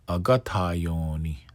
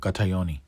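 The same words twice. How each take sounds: First: The middle vowels are held long. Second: The middle vowels are kept short. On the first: The speaker calls it right. "lengthen ta, lengthen yon, short ni" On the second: The speaker calls it wrong. "a lot of times I hear"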